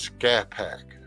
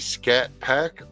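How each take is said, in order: First: The T at the end of Scat is silent. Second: The T at the end of Scat is pronounced. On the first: "Is the T silent?" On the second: "is that really Scat Pack"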